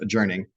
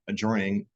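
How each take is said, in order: First: It is said not rhyming with forming. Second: It is said to rhyme with forming. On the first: It is the normal pronunciation. The speaker calls it right. "It's pronounced adjourning" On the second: It is bent to fit a rhyme. The speaker calls it wrong. "it's not pronounced that way"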